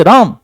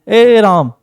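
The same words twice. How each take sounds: First: Loud call. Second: Said in the usual way. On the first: Shown as a demonstration. Teacher showing how to call Ram again loudly. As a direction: call the name again, louder. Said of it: "नहीं सुना, जोर से". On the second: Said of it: "कोई एक बार में साधारण सा आप बोले".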